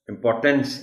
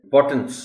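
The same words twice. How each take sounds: First: इंपॉर्टेंस ending in a clear "tense"; इंपॉर्टेंस with full E in last syllable; full TENS ending. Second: इंपॉर्टेंस ending in a reduced -tns; इंपॉर्टेंस with an unstressed schwa ending; weak final syllable. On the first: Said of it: "नहीं". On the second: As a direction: say इंपॉर्टेंस as im-POR-tuns. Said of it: "टेंस नहीं बोलना". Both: Shown as a demonstration.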